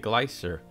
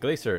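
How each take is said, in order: First: The word is said in a British accent. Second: The word is said in a non-British accent. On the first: This is how people from England say it. "I think they say glacier" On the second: This is how the speaker normally says it. "how do I say it?"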